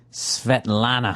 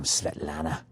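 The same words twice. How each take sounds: First: Svetlana drawn out slowly, each syllable relished; savoring the name. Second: Svetlana dropped low and soft, almost crooned; sultry repeat. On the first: Host savoring the Russian pilot's name, slow and relishing. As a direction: linger lovingly over Svetlana. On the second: Host repeating the pilot's name to himself, low and soft. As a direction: murmur Svetlana low and dreamy. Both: Shown as a demonstration. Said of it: "How great is that name?".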